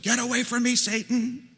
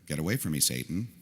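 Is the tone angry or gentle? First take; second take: angry; gentle. First: It is said harshly and forcefully. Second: It is said softly and tenderly. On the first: It is a furious rebuke. "Or maybe Jesus unloaded" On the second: It is a caring warning. "Maybe even put his hand on Peter's cheek or his shoulder"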